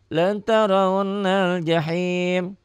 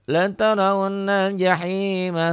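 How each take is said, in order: First: It stops on the word without a final vowel. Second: The final vowel is read and it runs on. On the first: The recitation pauses here. "Kalau dihentikan" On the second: The verse is joined to the next one. "Kalau digabung"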